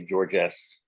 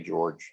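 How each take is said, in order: First: The final S sound is pronounced. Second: The final S sound is silent. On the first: The speaker calls it wrong. "if we wanted to butcher, butcher French language, we would say George S" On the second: The speaker calls it right. "they just say George. They don't say the S"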